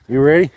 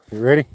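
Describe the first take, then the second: First: Louder, rising "ready" to hype up the dog; excited dog teasing. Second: Said in the usual way. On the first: Real, not acted. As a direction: pump the dog up before the throw. Teasing the dog before a throw.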